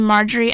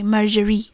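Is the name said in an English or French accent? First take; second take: English; French. First: The name is said in a plain English accent. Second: The name is said in a French accent.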